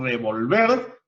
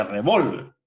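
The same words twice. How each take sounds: First: "revolver" with the weight on the last syllable, re-vol-VER; stress on final syllable. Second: "revólver" with the weight on the middle syllable, re-VÓL-ver; stress on middle syllable. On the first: Teacher explaining the difference, "revolver" stressed on its final syllable. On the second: Teacher explaining the difference, "revólver" stressed on its middle syllable. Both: Shown as a demonstration. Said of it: "la mayor fuerza de voz lleva en una sílaba distinta".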